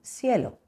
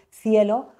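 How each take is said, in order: First: Cielo begins with an s sound. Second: Cielo begins with a th sound. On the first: "utilizando la S" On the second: "en lugar de decir cielo"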